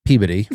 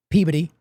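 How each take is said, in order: First: Peabody echoed PEE-buh-dee in disbelief; doubtful repeat. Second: Peabody said as PEE-buh-dee, unstressed middle; local Peabody pronunciation. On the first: Host echoing the local name, unconvinced. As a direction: repeat Peabody as if it can't be right. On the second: Massachusetts native saying the town the local way. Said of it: "there's Peabody". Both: Shown as a demonstration.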